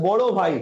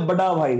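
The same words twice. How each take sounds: First: Said in the usual way. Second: বড়া with a hard d, "bada"; Indian pronunciation. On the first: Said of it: "আমরা দেখবেন বলি হচ্ছে". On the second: Shown as a demonstration. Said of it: "ওরা বলে". (ভারতীয় উচ্চারণে "বাডা ভাই")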